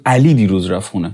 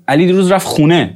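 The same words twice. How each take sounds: First: علی punched, rest of the sentence light; stress on Ali. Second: خونه carries the stress as the answer to where; stress on khooneh. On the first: Teacher asking who went home, stress on علی. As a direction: hit the word علی first and hard. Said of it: "تاکید رو علی". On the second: Teacher asking where Ali went, stress on خونه. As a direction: lean on خونه, keep علی light. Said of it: "تمرکز رفته رو خونه". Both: Shown as a demonstration.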